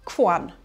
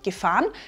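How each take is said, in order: First: The prefix is reduced to a bare g sound. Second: The prefix is a full syllable with a vowel.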